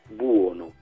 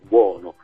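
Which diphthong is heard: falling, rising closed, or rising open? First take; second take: falling; rising open. First: A falling diphthong with the first vowel prominent. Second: A rising diphthong ending in an open vowel.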